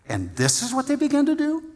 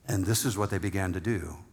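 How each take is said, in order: First: It is said with strong, exclamatory emphasis. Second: It is read plainly, without special emphasis.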